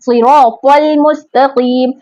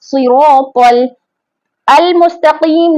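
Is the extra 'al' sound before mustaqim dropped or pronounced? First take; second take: dropped; pronounced. First: The 'l' links straight into mustaqim. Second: An extra 'al' is pronounced before mustaqim. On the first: The speaker calls it right. "क से सीधा लाम को मिला दिया गया है" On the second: The speaker calls it wrong. "नहीं पढ़ रहे हम"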